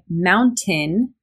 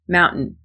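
First: The T is clearly pronounced. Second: The T is a glottal stop. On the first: "It's totally okay to say mountain with a T in there" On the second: "I use a glottal stop in mountain"

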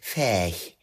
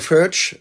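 First: The name is said with a North German accent. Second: The name is said in a non-German way.

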